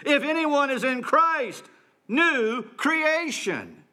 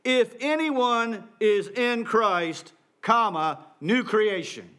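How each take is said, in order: First: Higher, slow, ringing declaration; slow, exultant preacher's cry; jubilant proclamation. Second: Slow, measured reading of the text, comma and all; careful scripture reading; literal reading. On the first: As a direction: proclaim it with triumphant joy. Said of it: "that's the emotion that Paul wants to evoke in us". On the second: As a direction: read it out plainly word by word. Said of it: "So the original reads". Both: Shown as a demonstration.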